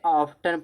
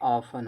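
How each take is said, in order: First: The word is said with a clear t sound. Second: The word is said with no t sound. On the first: The speaker calls it wrong. "Mostly लोग ऑफ्टन पढ़ा जा पढ़ते हैं" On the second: The speaker calls it right. "ये क्या होता है, ऑफन होता है"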